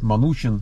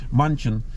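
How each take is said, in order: First: The name has a vowel between n and ch. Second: The name has no vowel between n and ch. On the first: This is how people there say the name. "вот Манучин они его называют" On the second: This is how the name is spelled. "Вообще пишется Манчин"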